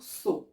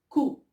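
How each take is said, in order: First: The syllable begins with a hissing S sound. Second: The syllable begins with a hard K sound. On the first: The speaker calls it wrong. "on ne doit pas dire so" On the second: The speaker calls it right. "C avec O, on va dire ko"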